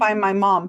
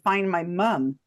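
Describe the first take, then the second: First: The last word sounds like American 'mom'. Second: The last word sounds like British 'mum'. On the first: The speaker calls it wrong. "why is he saying find my mom" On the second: The speaker calls it right. "He would say find my mum. ... He would say it like that"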